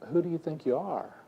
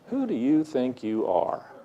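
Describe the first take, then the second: First: It sounds like a sincerely curious question. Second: It sounds like an accusing rebuke.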